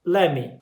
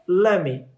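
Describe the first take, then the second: First: The words are blended into lemme. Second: The words are blended into lemme.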